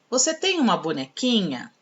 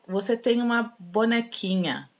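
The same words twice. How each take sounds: First: The sentence is read with question intonation. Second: The sentence is read flat, without question intonation. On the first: The speaker calls it right. "é uma pergunta" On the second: The speaker calls it wrong. "eu não li na entonação correta"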